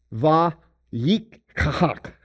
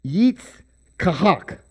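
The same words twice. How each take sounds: First: Va-yik-kahak drawn out slowly, each syllable apart; careful Hebrew pronunciation. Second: Yitz-kahak slow, stress on kahak, falling end; Hebrew name pronunciation. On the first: Preacher reading the Hebrew verb aloud. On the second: Preacher showing the name without its prefix. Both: Shown as a demonstration. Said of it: "I removed the va".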